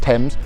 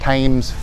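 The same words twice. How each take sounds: First: The name is said the English way. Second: The name is said the local Texan way. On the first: This is how it is said in its native land. The speaker calls it right. "it's pronounced Thames" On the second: This is how some people here say it. The speaker calls it wrong. "I've heard people pronounce it Thames"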